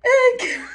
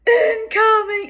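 First: Very high, loud mock scream; short, piercingly high lookout cry; imitated friend's scream. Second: High, loud, drawn-out holler; lookout's long high call; calling out warning. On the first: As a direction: echo the warning in a shriek. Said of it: "Karen again would go". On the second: Retold or imitated. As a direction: sound the alarm in a raised voice.

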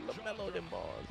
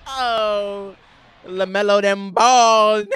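First: Much softer, tossed-off echo; quiet repeat. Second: Chanted, higher, louder and slow, stretching it out; loud hype chant. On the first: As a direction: mumble it back to yourself. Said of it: "I just said that". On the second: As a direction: chant it like a crowd hype line. Hyping the play. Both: Real, not acted.

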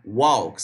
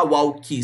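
First: "walk" low, stopping at the k; no extra vowel. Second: "walkie" with an ee after the k; added final vowel. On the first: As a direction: end "walk" on the k. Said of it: "não há essa extensão de vogal". ("walk" terminando no k, sem i) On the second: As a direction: wrongly tack ee onto walk as "walkie". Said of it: "Você não vai falar". ("walkie" com i depois do k) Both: Shown as a demonstration.

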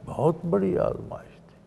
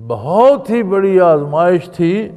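First: Soft but higher-pitched; quiet, lifted aside after a pause; hushed emphasis. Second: Loud, high stress on "بہت ہی"; preacher driving it home with "بہت ہی" raised; emphatic repeat. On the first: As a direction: say it softly, letting the weight sink in. First take, softer, before emphatic repeat. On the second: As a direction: hit "بہت ہی" high and hard, carrying the force through. Repeats line louder for emphasis. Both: Real, not acted.

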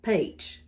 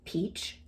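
First: "peach" drawn toward "paych"; Southern vowel glide in "peach"; Southern pronunciation. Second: "peach" with a clean long ee; standard pronunciation. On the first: Showing the difference between two peaches, Southern "peach". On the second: Showing the difference between two peaches, standard "peach". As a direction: softly say "peach" the non-Southern way. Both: Shown as a demonstration. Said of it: "It's like the difference between".

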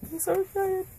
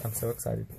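First: Very high squealing excitement; excited squeal. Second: Said in the usual way. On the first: Real, not acted. Seeing the console first time.

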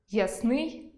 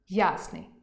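First: Ясний stressed on и, ясни́й, rising; stress on the last syllable. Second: Ясний stressed on я, я́сний, falling; stress on the first syllable. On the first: Teacher demonstrating ясни́й. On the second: Teacher giving the variant я́сний. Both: Shown as a demonstration. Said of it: "Наприклад".

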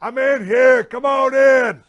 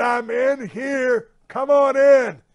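First: High, loud shout from the shower; calling out. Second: Drawn-out call. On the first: Stuck in the shower, shouting to the firemen at the door, loud call. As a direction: yell it so the firemen hear you through the house. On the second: Calls again to the firemen. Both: Retold or imitated.

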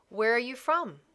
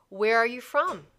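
The two takes are said the same way.

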